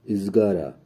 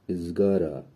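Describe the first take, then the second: The two takes are said the same way.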